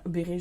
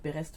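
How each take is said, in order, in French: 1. Le s final est muet. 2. Le s final est prononcé. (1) "je ne sais pas comment ça se dit" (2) "On va dire Berest parce qu'il y a un S"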